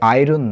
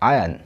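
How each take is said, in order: First: An r sound is pronounced in the middle. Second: No r sound is pronounced in the middle. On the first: The speaker calls it wrong. "আয়রন নয়" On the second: The speaker calls it right. "এর উচ্চারণটা হবে ... আয়ন, আটা এখানে silent থাকে"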